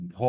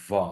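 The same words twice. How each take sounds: First: ভ as a stopped, aspirated b; wrong Bengali bh. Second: ভা with a long buzzing v; air-released v. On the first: Teacher showing what English doesn't use, stopped bh. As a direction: close the lips and puff out ভ. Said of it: "এরকম হবে না". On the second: Teacher showing the English sound, buzzing v. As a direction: let air buzz out before the vowel of ভা. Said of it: "বাতাস বেরোনোর সময়". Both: Shown as a demonstration.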